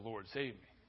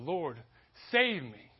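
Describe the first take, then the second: First: It is said calmly, without urgency. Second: It is cried out with desperate urgency.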